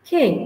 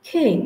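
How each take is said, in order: No difference in how they are said.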